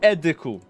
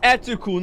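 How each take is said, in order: First: The middle consonant is a D sound. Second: The middle consonant is a T sound. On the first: The speaker calls it wrong. "not Ediku. ... Do you see a D?" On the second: The speaker calls it right. "it's Etuku"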